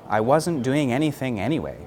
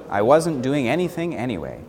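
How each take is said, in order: The two takes are said the same way.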